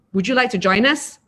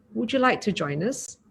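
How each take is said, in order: First: Louder, pushy question; unfriendly tone. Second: Soft, kind asking; gentle invitation. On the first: Teacher showing a rude tone of the same invitation, louder. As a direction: make the invite sound unwelcoming. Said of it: "If we're using a different tone". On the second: Teacher showing the kind way to invite, soft and friendly. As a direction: invite them in softly. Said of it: "even with those words". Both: Shown as a demonstration.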